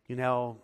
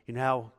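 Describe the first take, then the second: No difference in how they are said.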